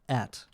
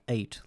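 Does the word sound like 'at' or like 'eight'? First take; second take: like at; like eight. First: The vowel sounds like the one in 'at'. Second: The vowel sounds like the one in 'eight'. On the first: The speaker calls it wrong. "but at" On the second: The speaker calls it right. "not like ate"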